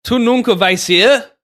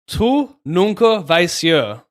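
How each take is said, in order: First: Bolder, louder retry stressing "nunca"; eh sound pronounced. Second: Slow, careful first try at "Tu nunca vais ser"; slow, deliberate learner's read; slow careful Portuguese. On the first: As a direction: lean hard on "nunca" and open up the eh in "ser". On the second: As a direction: sound out "Tu nunca vais ser" slowly and evenly, word by word. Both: Shown as a demonstration. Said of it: "But pronounce the eh sound".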